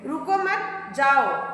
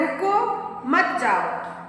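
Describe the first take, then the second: First: There is a pause after mat. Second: There is a pause after ruko.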